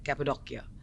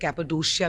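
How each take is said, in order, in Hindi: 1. आख़िरी अक्षर से पहले का व्यंजन k है। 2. आख़िरी अक्षर से पहले का व्यंजन sh है। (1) "जो लोकल्स उसे ऐसे बुलाते हैं" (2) "कोई कोई लोग उसे कैपेडोशिया भी बोलते हैं"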